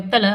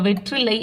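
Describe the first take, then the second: First: The word is said with a reduced 'th' sound. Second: The word is said with a full 'tr' sound. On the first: This is how people say it in everyday speech. The speaker calls it wrong. "வெத்தலை அப்படின்னு சொல்லுவோம்" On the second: This is the correct written form. The speaker calls it right. "வெற்றிலை அப்படின்னு சொல்ல மாட்டோம்"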